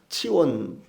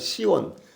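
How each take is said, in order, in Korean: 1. 이 이름은 ts 소리로 시작합니다. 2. 이 이름은 s 소리로 시작합니다. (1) "헬라어에서는 그래 성경적으로 읽으면은 치원" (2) "우리말로 그냥 시온, 시옷자로 이렇게 읽는데"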